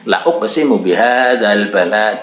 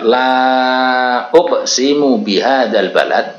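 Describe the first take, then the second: First: The vowel of 'la' is cut short. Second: The vowel of 'la' is held long. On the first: The speaker calls it wrong. "kita baca pendek" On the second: The speaker calls it right. "la uksimu itu lamnya ada alifnya"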